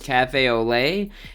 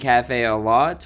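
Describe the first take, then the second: First: The last word ends in an 'ay' vowel. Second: The last word has an 'o' vowel ending in t. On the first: The speaker calls it right. "Apparently it's Cafe au Lait" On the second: The speaker calls it wrong. "I was saying Cafe au Lot, which I knew that sounded weird"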